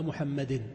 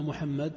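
First: محمد said Muhammadin, with a clear final -in; genitive ending. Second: Said in the usual way. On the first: Shown as a demonstration. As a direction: sound the kasra tanwin at the end of محمد. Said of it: "وتجعل على آخرها كسرة". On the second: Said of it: "في آخرها كسرة".

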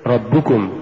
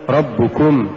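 First: ربكم as one word, push on the doubled ب; joined ربكم, light كم; correct recitation. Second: ربكم with كم pushed; split-sounding كم in ربكم; wrong stress. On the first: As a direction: stress ربُّ in ربكم. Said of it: "قل". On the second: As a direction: punch the ending of ربكم. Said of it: "ولا تقل". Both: Shown as a demonstration.

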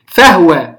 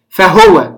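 First: فهو read with the ha voiced in full as fahuwa; فهو pronounced fahuwa, full vowel on the ha. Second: فهو read with a silent ha as fahwa; فهو pronounced fahwa with sukun on the ha. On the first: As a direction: say فهو as fa-hu-wa, the ha carrying a short u. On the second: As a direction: say فهو as fah-wa, no vowel on the ha. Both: Shown as a demonstration. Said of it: "بإسكان الهاء".

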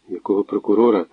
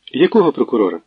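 First: Said in the usual way. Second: Puzzled question. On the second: Acted. Natalia puzzled by mention of the prosecutor. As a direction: ask якого sharply, puzzled.

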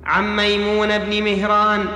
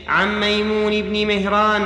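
First: ميمون ending in "a", maymuna; corrected fatha ending. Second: ميمون ending in "i", maymuni; kasra ending. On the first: (ميمون بفتح النون) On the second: (ميمون بكسر النون) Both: Real, not acted. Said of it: "ميمونة".

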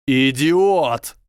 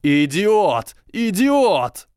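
First: High, loud yell of rage. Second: Climbing, ever higher screams of rage; yelling. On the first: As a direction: bellow the insult furiously. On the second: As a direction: shriek it louder each time. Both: A narrator's reading. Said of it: "заорал Драко".

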